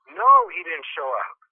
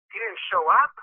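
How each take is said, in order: First: Slow, louder NO, then "he didn't show up" falling; firm confirmation. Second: "He didn't show up?" higher, rising at UP; disbelieving question. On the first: Tenant's firm answer to the question. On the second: Disbelief at tenant's news. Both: Retold or imitated.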